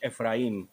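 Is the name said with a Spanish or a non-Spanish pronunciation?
Spanish. The name is said with a Spanish pronunciation. "if you say it in Spanish"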